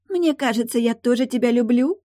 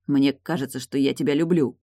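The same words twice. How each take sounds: First: Much higher squeaky parody of "Мне кажется"; squeaky mocking voice. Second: Said in the usual way. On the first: Tilda parodies Morton's confession in a squeaky mocking voice. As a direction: squeak it like a silly lovestruck girl. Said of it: "писклявым голосом произнесла Тильда".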